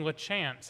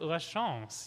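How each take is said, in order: First: The name is said with an English pronunciation. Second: The name is said with a French pronunciation. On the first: This is how broadcasters say the name. The speaker calls it wrong. "they're saying LaChance on all the broadcasts" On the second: This is how the speaker thinks the name should sound. The speaker calls it right. "he should pronounce it La Chance"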